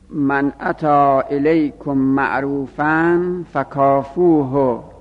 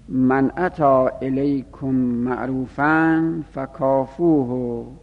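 First: It is read at a louder volume. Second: It is read at a quieter volume.

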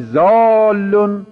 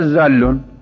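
First: The first vowel is held long. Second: The first vowel is cut short. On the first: The speaker calls it right. "اگر مد به این الف ندیم ... اگر نگی زالون" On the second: The speaker calls it wrong. "بگی میشه زالون، الفه محو میشه"

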